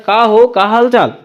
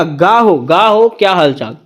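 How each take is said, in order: First: Said in the usual way. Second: गा हो with a hard g instead of k; Chhattisgarhi greeting. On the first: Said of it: "हम लोग कहीं जाते हैं बोलते हैं ना". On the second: Shown as a demonstration. Teacher imitates Chhattisgarhi villagers greeting lightly. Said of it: "वैसे ही लोग क्या कहेगा?".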